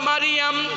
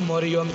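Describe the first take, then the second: First: The name is said in the fuller Arabic form. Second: The name is said in the everyday local form. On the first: The speaker calls it right. "নাম হলো মারিয়াম" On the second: The speaker calls it wrong. "আমরা বলি মরিয়ম ... আসলে মরিয়ম না"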